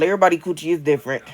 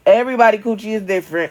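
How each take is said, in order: First: Said in the usual way. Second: "Everybody" said higher and louder, fast; emphatic repeat. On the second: Shown as a demonstration. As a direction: repeat "Everybody coochie is different" insistently, louder.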